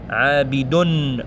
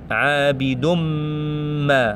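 First: A clear n sound is pronounced at the end. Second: The n merges into a held, lengthened m. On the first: The speaker calls it wrong. "On ne dit pas Abidun" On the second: The speaker calls it right. "On va directement sur mim en fait. Il reste un petit peu longtemps sur mim"

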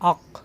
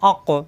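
First: The final q stops flat without a bounce. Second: The final q is released with a bounce. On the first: The speaker calls it wrong. "আক এরকম হওয়ার কথা" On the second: The speaker calls it right. "এই জন্য কলকলা অর্থাৎ ধাক্কা দিতে হবে।"

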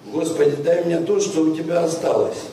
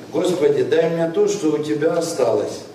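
The two takes are said the same way.

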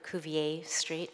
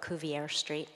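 First: Cuvier is said with a French pronunciation. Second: Cuvier is said with an English pronunciation. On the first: "if you speak French" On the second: "I don't, so I'll call it"

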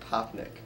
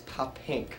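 First: The name ends with a 'nick' sound. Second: The name ends with a 'pink' sound. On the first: The speaker calls it wrong. "he pronounced it Poppnick" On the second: The speaker calls it right. "And it's Poppink"

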